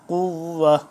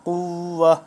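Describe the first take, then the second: The two takes are said the same way.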